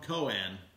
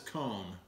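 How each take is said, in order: First: The name is said like Cohen. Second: The name is said like the word cone. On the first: This is how the company itself says it. The speaker calls it right. "they answer the phone Cohen" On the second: This is how the speaker always said it privately. The speaker calls it wrong. "my entire life, talking to myself, I've called this cone"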